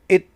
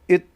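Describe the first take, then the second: First: The word has a short reduced vowel. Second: The same.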